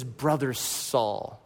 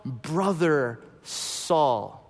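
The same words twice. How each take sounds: First: Soft, slow, tender greeting. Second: Tender emphasis. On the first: Retold or imitated. Ananias gently greets Saul, slow and tender. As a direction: say it gently like embracing a brother. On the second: Shown as a demonstration. Preacher contrasts labels, saying brother Saul slowly and tenderly. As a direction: linger lovingly on brother Saul.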